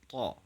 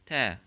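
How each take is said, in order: First: "ta" with heavy t and back a; dark "ta", vowel like father; emphatic ta. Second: "ta" with plain t and front a; light "ta", vowel like cat; soft ta. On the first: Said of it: "so it will be emphatic". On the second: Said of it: "If it comes after a soft sound like". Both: Shown as a demonstration.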